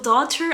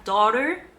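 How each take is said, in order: First: The t is a clear t sound. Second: The t is a soft d-like flap. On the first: "I think it's the British pronunciation" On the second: "the American pronunciation"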